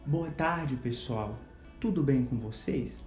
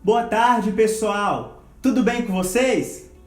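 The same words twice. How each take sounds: First: It is said at a medium volume. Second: It is said loudly, at high volume. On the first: "depois numa tonalidade média" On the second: "depois numa tonalidade alta"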